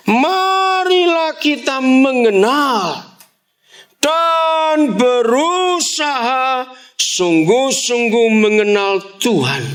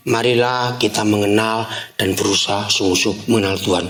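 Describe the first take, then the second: First: Marilah kita mengenal read high and slow as a serious call; serious intonation. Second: Said in the usual way. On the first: Shown as a demonstration. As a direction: give Marilah a solemn, drawn-out invitation. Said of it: "Ini ajakan yang serius". (intonasi ajakan serius, tinggi dan lambat) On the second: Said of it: "Nggak ada intonasinya".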